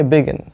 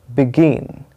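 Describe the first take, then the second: First: begin with no weight on the second syllable गिन; unstressed wrong version. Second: begin with a long, stressed गिन (bi-GEEN); correct second-syllable stress. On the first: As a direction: say begin short and even, missing the stress on गिन. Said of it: "stress नहीं पता होगा". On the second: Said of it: "इसका जो correct उच्चारण होता है". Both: Shown as a demonstration.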